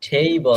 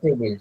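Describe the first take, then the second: First: The word ends in a bare syllabic l. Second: The word ends with an 'il' vowel sound. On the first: The speaker calls it right. "টেবল, not টেবিল" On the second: The speaker calls it wrong. "Not টেবিল"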